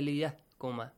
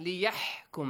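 First: The h is a soft, breathy sound. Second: The h is a harsh, throaty sound. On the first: The speaker calls it wrong. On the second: The speaker calls it right.

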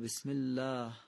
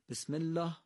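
First: The long 'a' vowel is drawn out. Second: The long 'a' vowel is cut short. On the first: The speaker calls it right. "قطعا دومی درسته" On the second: The speaker calls it wrong. "بعضی وقتا صداهای کشیده رو کوتاه میکنی"

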